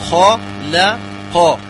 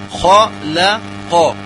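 The two takes are said the same way.

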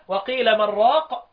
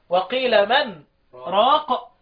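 First: The last two words run together without pause. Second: A brief silent pause separates the last two words. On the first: "الباقيين يقرأوا بدون سكت" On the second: "الأربع كلمات دول خاصين بمين؟ بحفص"

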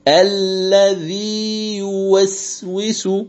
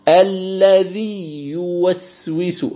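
First: The long vowel is held fully before the y. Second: The long vowel merges into the following y sound. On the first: The speaker calls it right. "أن تمكن المد دون إدغام" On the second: The speaker calls it wrong. "هذا خطأ"

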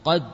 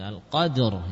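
First: The word ends at d with no r sound. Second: The word ends with an audible r sound. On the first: The speaker calls it wrong. "Bukan qad saja" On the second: The speaker calls it right. "roknya juga kedengaran"

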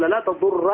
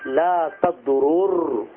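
First: The two r sounds merge into one doubled r. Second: The two r sounds are split by a vowel. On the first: "بالإدغام" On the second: "وإن شئت قلت"

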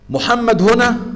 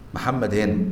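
First: The voice rises at the end, like a question. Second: The voice falls at the end, like a statement. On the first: It asks whether the person is present. "الجواب هنا أو مش هنا؟" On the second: It states that the person is present. "قرار مني أنه هنا"

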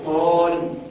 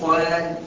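First: The long a vowel sounds heavy and full. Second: The long a vowel sounds light and thin. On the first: The speaker calls it right. "بقول قال" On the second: The speaker calls it wrong. "ما بقولش قال"

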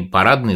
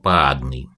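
First: The R sound is pronounced clearly. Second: The R sound is missing or replaced.

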